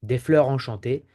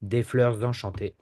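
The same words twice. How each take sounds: First: Des fleurs enchantées with no Z; French without liaison. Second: Des fleurs enchantées linked with Z, fleur-zenchantées; French liaison with Z. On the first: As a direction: leave fleurs apart from enchantées. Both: Shown as a demonstration. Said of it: "and say".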